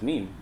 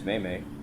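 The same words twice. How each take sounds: First: It is said with an English pronunciation. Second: It is said with a Spanish pronunciation. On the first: This is the usual way among English speakers. "I always pronounce it as meme" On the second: This is how Spanish speakers say it. "that's how they say it, I guess, in Spanish"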